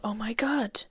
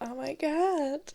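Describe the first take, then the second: First: It is said in a plain, ordinary tone. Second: It is said in a showy, flamboyant tone.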